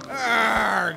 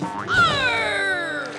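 First: It sounds drowsy and sleepy. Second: It sounds brave and bold.

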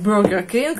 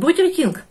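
First: The name is said with an English accent. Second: The name is said with a German accent. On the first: "Пыталась англоизировать, там, Бургер Кинг, как-то так сказать" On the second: "я пыталась сказать Бургер Кинг по-немецки"

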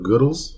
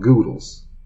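First: The first vowel sounds like in 'good'. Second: The first vowel sounds like in 'noodles'. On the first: "going with the pronunciation of good for Goodles" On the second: "make it rhyme with noodles and call it Goodles"

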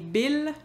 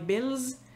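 First: The final s sound is silent. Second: The final s sound is pronounced. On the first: "il fait rimer avec « tranquille »" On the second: "on prononce le « s » du pluriel"

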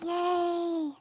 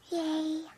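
First: The cheer is said very loudly. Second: The cheer is said quietly.

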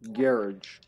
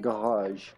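First: It is said with an American pronunciation. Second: It is said with a French pronunciation. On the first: "in America, it would be garage" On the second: "In France, you would say probably garage"

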